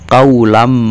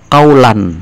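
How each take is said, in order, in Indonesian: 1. Bunyi n menyatu dengan m yang mengikutinya. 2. Bunyi n di akhir diucapkan dengan jelas. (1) "tapi dibaca kaulam ya. Berarti suara tanwin masuk ke mim menjadi satu" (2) "tidak dibaca kaulan"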